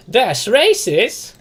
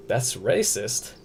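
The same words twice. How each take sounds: First: High, loud, very slow disbelieving question; incredulous. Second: Said in the usual way. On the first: Real, not acted. Streamer to chat repeating their accusation, loud stretched-out disbelief.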